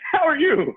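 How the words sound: It is a serial killer's excited, edgy voice.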